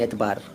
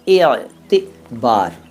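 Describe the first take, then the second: First: The word has two syllables, without a middle vowel. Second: The word has three syllables, with a middle 'i'. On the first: This is how Indians commonly say it. "हम लोग हिंदुस्तानी लोग तो एतबार बोलते हैं" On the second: This is the original Arabic pronunciation. "एतिबार ऐसे बोलेंगे क्या? ... अरबी लोग बोलते हैं"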